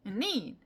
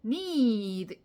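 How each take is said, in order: First: "need" stressed with a moderately long vowel; firm, compact "need". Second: "need" with the vowel stretched far too long; hugely drawn-out "need"; overlong need. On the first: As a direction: give "need" weight without dragging it out. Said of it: "이렇게 하는 거죠". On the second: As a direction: exaggerate the length of "ee" in "need". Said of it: "이렇게 하는 게 아니라". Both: Shown as a demonstration.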